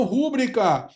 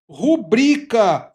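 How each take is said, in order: First: "rúbrica" as RÚ-bri-ca; mispronounced "rúbrica", stressed at the front; wrong first-syllable stress. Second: "rubrica" as ru-BRI-ca; stress on BRI. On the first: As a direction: hit the RÚ of "rúbrica". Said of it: "e não rúbrica". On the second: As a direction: stretch the middle syllable of "rubrica". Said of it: "A gente tem que pronunciar". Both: Shown as a demonstration.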